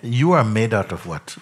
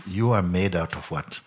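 First: ARE pushed louder, falling end; stress on ARE. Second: Said in the usual way. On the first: Shown as a demonstration. To the questioner, leaning on the word are. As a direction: press the word are, then let it fall.

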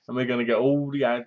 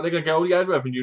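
First: Said in the usual way. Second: Rushed imagined quote. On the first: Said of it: "They said". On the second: Retold or imitated. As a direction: rattle off "They're gonna get all the ad revenue" very fast. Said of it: "I was like".

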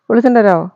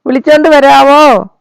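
First: Said in the usual way. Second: Louder, drawn-out repeat of വിളിച്ചോണ്ട് വരാവോ; louder slower ask. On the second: Shown as a demonstration. Owner repeats the request to fetch Juicy, louder and slower. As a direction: call it out slowly and louder, stressing വിളിച്ചോണ്ട്. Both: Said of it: "ജൂസിയെ പോയി വിളിച്ചോണ്ട് വരാവോ?".

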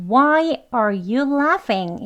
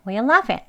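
First: A stretched, stressed Why at the start; emphasized. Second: Why are you laughing clipped and quick; fast. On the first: Teacher shows the emphatic version. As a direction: lean hard on Why and slow down. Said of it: "강조되어지는". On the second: Teacher shows the quick form in conversation. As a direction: say it fast in one breath. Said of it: "정말 빨리 발음할 때에". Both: Shown as a demonstration.

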